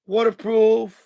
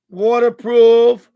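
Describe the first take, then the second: First: Said in the usual way. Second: Waterproof drawn out slow and much louder; emphatic waterproof. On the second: Shown as a demonstration. Showing off the waterproof gear to viewers, slow loud emphasis. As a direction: hit Waterproof hard and slow, word by word.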